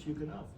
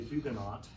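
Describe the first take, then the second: First: The starting H is sounded but the final T is silent. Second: Both the starting H and the final T are sounded. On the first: This is the English way of saying it. "the English pronunciation of Huguenot, ... they pronounce the H but not the T" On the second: This is how it was learned in school. "I learned when I was uh, a, a school child uh, to say Huguenot"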